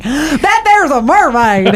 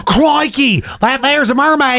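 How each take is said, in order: First: Put-on gasping Papua New Guinea accent, slow; gasp, then a put-on Papua New Guinea accent. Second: Put-on gasping, higher Australian accent. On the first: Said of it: "how do you do a Papua New Guinea accent". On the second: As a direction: gasp then Crikey in an Australian accent. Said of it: "Is that an Australian accent?".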